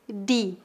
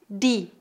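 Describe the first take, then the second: First: It is said in a northeastern Brazilian accent. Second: It is said in a northeastern Brazilian accent.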